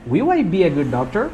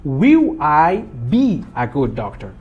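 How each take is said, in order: First: "Will I be a good doctor" lifting at the end on DOCTOR; question intonation. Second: Slow, spaced-out model sentence; teacher spelling out the word order slowly. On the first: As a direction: ask it, pitch rising on DOCTOR. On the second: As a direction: lay out WILL, I, BE one deliberate word at a time. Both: Shown as a demonstration. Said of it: "E faço a entonação".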